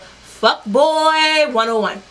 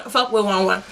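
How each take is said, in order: First: Put-on Fuck boy one oh one drawn out slow, boy stressed; slow emphatic catchphrase. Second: Put-on Fuck boy one oh one said through a laugh; laughing repeat. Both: Shown as a demonstration.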